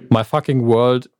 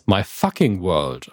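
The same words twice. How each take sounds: First: The stress is on the word world. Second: The stress is on the word fucking.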